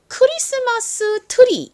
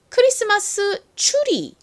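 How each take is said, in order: First: The word 'tree' begins with a plain t sound. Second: The word 'tree' begins with a ch-like sound. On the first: The speaker calls it wrong. "요즘에는 트리라고 적지만" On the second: The speaker calls it right. "사실 트리보다 이 추리가 실제 영어 발음과 더 유사합니다"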